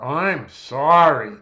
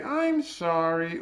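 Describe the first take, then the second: First: Loud, very drawn-out sarcastic "I'm sorry"; drenched in sarcasm. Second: Slow, higher-pitched "I'm sorry"; sincere apology. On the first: Lecturer demonstrates inflection to students, heavily sarcastic apology. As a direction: lean hard on "sorry" with heavy sarcasm, stretching it out. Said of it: "drenched in sarcasm". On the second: Lecturer demonstrates inflection to students, sincere apology. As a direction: apologize sincerely, drawing the words out gently. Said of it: "one of them is sincere". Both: Shown as a demonstration.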